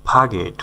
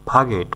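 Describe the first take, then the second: No difference in how they are said.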